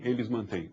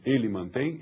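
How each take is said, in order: First: "mantêm" sounds the same as "mantém"; teacher reads "eles mantêm" to show it sounds identical; same pronunciation, plural. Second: "mantém" said with nasal final, exactly as the plural; same pronunciation, singular. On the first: Same sound, plural form. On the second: Same sound, singular form. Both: Shown as a demonstration. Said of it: "a pronúncia é exatamente a mesma".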